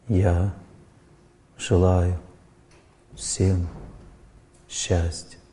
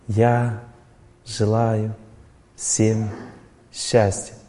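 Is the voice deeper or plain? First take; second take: deeper; plain. First: It is said in a deeper, more inward voice. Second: It is said in a plain, ordinary voice. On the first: The wish is repeated while recalling a mentor. "Более глубокий звук" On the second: The wish comes from the speaker alone. "я повторяю от себя"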